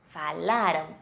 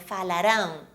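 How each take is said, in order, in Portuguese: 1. A sílaba tônica é a do meio. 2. A sílaba tônica é a última. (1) "Imaginem um acento antes da letra R" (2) "Muitos alunos pronunciam falarão. Isso parece um futuro"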